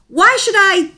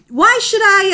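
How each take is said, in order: No difference in how they are said.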